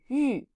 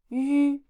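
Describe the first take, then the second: First: The pitch falls sharply from high. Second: The pitch stays high and level. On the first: "and fourth tone" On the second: "these are the first tones"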